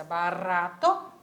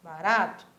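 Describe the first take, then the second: First: Barato with a tapped Spanish r and full final o, slow; Spanish pronunciation. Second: Barato with a clipped final, Brazilian style; Portuguese pronunciation. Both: Shown as a demonstration. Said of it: "um detalhezinho na pronúncia".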